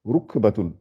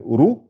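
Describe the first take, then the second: First: Said in the usual way. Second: "ruakbatun" split into syllables with clear pauses; syllables separated. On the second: Shown as a demonstration. Teacher sounding out letters for learners, "ruakbatun" in separate syllables. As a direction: say "ruakbatun" piece by piece, a gap after each syllable. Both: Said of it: "séparer les lettres et de les assembler".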